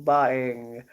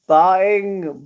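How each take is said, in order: First: Said in the usual way. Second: "Buying" said higher and louder with a falling tune; emphatic word. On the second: Real, not acted. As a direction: punch out "Buying" then drop it.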